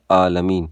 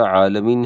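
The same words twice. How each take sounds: First: عالمین begun with a plain glottal "aa"; عالمین with hamza replacing the ain; mistaken hamza for ain. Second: عالمین with a throaty Arabic ain at the start; correct ain in عالمین. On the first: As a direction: say عالمین without the throaty ain. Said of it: "حمزہ پڑھتے ہیں یا ہا". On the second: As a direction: say عالمین with a true pharyngeal ain. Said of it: "عین کے بجائے". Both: Shown as a demonstration.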